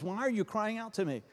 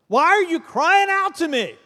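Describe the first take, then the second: First: The line is read in a plain, neutral way. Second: The line is read with strong, impatient emotion.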